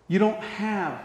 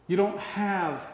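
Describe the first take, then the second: No difference in how they are said.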